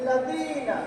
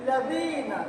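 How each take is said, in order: Both takes have the same delivery.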